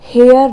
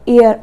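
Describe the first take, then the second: First: The word begins with an h sound. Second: The word begins with a vowel, no h. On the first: The speaker calls it wrong. "हम इसको हियर हेयर नहीं पढ़ेंगे" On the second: The speaker calls it right. "एच यहाँ पर silent रहता है"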